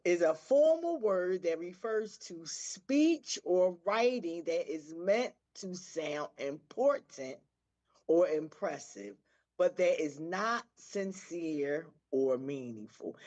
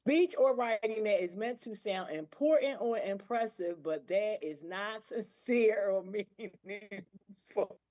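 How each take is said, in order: First: Slow, emphatic definition read; measured read-aloud so each phrase lands; deliberate re-reading. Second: Amused read-aloud with a laugh; reading, breaking into laughter. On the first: Shown as a demonstration. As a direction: read it out slowly, pausing between phrases. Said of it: "I'm gonna read it over". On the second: Real, not acted. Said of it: "y'all gonna see why I'm laughing".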